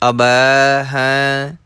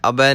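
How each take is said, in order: First: ਅਬੈ slowly lengthened; drawn-out pronunciation. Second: ਅਬੈ clipped short; wrong short reading. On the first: Teacher showing students the drawn-out ਅਬੈ, slow. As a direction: stretch the vowel of ਅਬੈ a little. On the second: Teacher showing students the hasty wrong ਅਬੈ. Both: Shown as a demonstration. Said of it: "ਥੋੜ੍ਹਾ ਜਿਹਾ ਲਮਕਾ ਕੇ".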